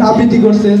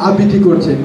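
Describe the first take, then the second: No difference in how they are said.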